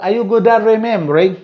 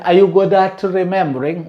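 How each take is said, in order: First: "at remembering" with the T turned into R; quick linked "at remembering", T becoming R. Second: Said in the usual way. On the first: Shown as a demonstration. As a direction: glide from "at" into "remembering" with no T. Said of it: "ta is also pronounced as ra". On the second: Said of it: "Also we can say".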